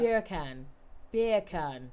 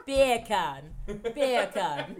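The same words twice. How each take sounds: First: A mild English accent on "Beer can", like "bacon". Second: "Beer can" in a louder English accent, close to "bacon". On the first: Showing friends a mild English-accent trick. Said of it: "in an English accent". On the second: Proving the joke to friends with a louder English accent. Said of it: "Do you hear it?". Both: Shown as a demonstration.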